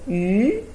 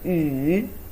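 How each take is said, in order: First: It is said with a rising tone. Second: It is said with a low dipping tone. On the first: It means fish. "is the second tone" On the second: It means ring. "we pronounce the third tone"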